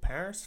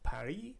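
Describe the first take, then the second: First: It is pronounced the English way. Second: It is pronounced the French way.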